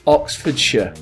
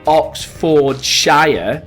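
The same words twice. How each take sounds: First: The last syllable has a schwa vowel. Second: The last syllable has a full vowel. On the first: The speaker calls it right. "but Oxfordshire. So notice how we use the schwa" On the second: The speaker calls it wrong. "So not Oxfordshire"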